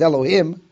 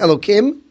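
First: The middle consonant is an h sound. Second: The middle consonant is a k sound. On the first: The word refers to judges, not to God. "I can even pronounce it as Elohim" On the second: The word is treated as referring to God. "We have Elokim"

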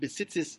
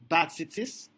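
First: The first vowel is short and reduced. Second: The first vowel is a clear open 'a'. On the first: The speaker calls it right. "with a shva under the bez" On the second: The speaker calls it wrong. "pronounced it with a pasach"

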